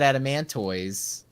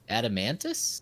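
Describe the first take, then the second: First: The word ends with a 'toys' sound. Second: The word ends with a 'tus' sound. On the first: This is how the speaker always said it. "I always said adamantoids" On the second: This is how others said it. "they were like adamantus"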